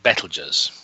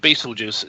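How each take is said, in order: First: The name is not said like 'Beetlejuice'. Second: The name sounds like the word 'Beetlejuice'. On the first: The speaker calls it right. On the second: The speaker calls it wrong.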